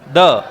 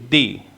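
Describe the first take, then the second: First: The word ends in a short 'uh' vowel. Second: The word ends in an 'ee' vowel. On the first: A consonant sound follows the word. "जब इस spelling के बाद में sound कैसी आ जाए? Consonant." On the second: A vowel sound follows the word. "Vowel sound. ... उच्चारण बदल लेती है"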